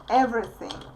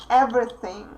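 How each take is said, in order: The two takes are said the same way.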